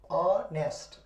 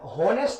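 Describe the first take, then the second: First: The word begins directly with a vowel. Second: The word begins with an h sound. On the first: The speaker calls it right. "इसको पढ़ेंगे ऑनेस्ट" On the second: The speaker calls it wrong. "होनेस्ट नहीं पढ़ेंगे"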